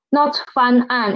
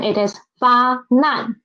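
First: Fan an, with n kept on the first syllable; wrong syllable split. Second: Fa nan, with n moved onto the second syllable; correct syllable split. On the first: Teacher shows the wrong reading of 发难. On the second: Teacher gives the right reading of 发难. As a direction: say fa then nan, clearly separated. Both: Shown as a demonstration. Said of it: "Not fa nan".

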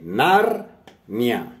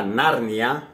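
First: Narnia split into two syllables, Nar-nia. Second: Said in the usual way. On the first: Shown as a demonstration. Teacher showing students that Narnia has two syllables, Nar-nia. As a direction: say Nar, a short break, then nia, as a single glide. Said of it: "veríamos así". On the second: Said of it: "Tenemos a la palabra Narnia".

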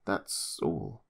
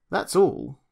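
First: Fading repeat. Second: Higher and louder, firm end; insistent. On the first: Julius trailing off to the doctor, deflated. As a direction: lower and softer, deflated echo. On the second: Julius insisting to the doctor, firm. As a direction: state it with force. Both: Acted.

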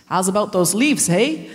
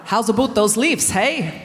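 First: First, slightly off try at a Canadian accent; a loose Canadian lilt, not quite landed. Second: Corrected Canadian accent, lifting on leaves; a cleaner Canadian lilt, leaves rising. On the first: Doing the elders' Canadian accent, first try, a touch off. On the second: Retrying the Canadian elders' accent to get it right. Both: Shown as a demonstration. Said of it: "No, I haven't said that right".

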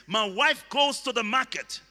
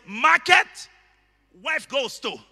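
First: Said in the usual way. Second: "Market" punched high and loud; shouted "Market" up front, then a break; stress on Market. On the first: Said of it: "in a sentence". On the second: Shown as a demonstration. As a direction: hit "Market" hard, pause, then drop back for the rest. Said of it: "If market is what I want to emphasize".

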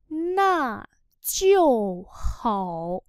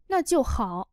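First: Three long, separated syllables; slow model reading. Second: Said in the usual way. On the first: Shown as a demonstration. Teacher modelling "that's good then" for learners, very slowly. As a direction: stretch each syllable with its tone.

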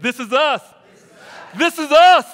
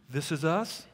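First: Loud, high, emphatic "This is us", louder on the repeat; like you mean it. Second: "This is us?" with a rise on "us"; questioning prompt. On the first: Preacher showing the congregation how to say it, shouting like they mean it. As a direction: shout "This is us" with full conviction. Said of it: "Say it like you mean it". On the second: Preacher prompting the congregation to respond, "us" rising as a question. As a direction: lift "us" as a question, at ordinary volume. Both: Shown as a demonstration.

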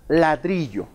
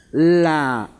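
First: Said in the usual way. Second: "ladrillo" in three long, separate pieces, la... dri... llo; teacher dictating "ladrillo" by syllables. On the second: Shown as a demonstration. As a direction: sound out "ladrillo" slowly with gaps. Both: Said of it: "Lo separamos por sílabas".

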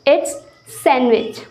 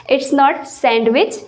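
First: Sandwich very slowly with a silent d, san-wich; correct pronunciation. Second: Sandwich said very slowly with a clear d; wrong pronunciation. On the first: Teacher slowly modelling the right form for students. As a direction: stretch sandwich, drop the d. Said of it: "it's not sandwich, it's sandwich". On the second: Teacher slowly showing students the wrong form. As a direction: drag out the wrong sandwich, d sounded. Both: Shown as a demonstration.

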